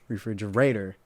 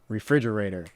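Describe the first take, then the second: First: The stress is not on the syllable 'frig'. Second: The stress is on the syllable 'frig'. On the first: The speaker calls it wrong. "you wouldn't say" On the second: The speaker calls it right. "You would say refrigerator because fridge is the emphasis of the word"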